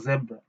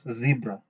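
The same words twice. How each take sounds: First: It is said with a Kenyan English accent. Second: It is said with an American English accent. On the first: "sisi tumeizoea kama zebra" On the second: "A person from the U S uh, will pronounce it as zebra"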